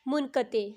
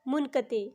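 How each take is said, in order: First: The word ends in 'e', as in munqate. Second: The word ends in 'e', as in munqate.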